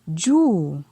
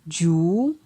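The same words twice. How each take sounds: First: The syllable has a falling tone. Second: The syllable has a rising tone. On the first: "ton descendant" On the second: "ton montant"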